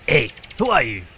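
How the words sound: It is said in a put-on old man's voice.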